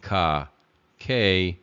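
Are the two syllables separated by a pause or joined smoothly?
separated. The syllables are said separately with a pause. "as opposed to saying ka, ke"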